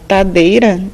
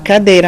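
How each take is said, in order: First: The word begins with a t sound. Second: The word begins with a k sound. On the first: The speaker calls it wrong. "ela fala tadeira" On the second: The speaker calls it right. "em vez de falar cadeira"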